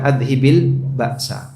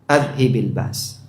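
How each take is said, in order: First: The last word ends with an added vowel sound. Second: The last word ends on a bare consonant. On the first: The speaker calls it wrong. "Bukan adhibil ba'sa" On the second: The speaker calls it right. "cara baca yang lebih tepat adhibil bas"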